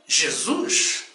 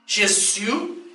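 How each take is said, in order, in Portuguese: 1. O nome é pronunciado do jeito português. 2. O nome é pronunciado do jeito francês. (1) "no Brasil e em todas as nações de língua portuguesa... dizemos com muita fé e alegria" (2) "Os franceses dizem"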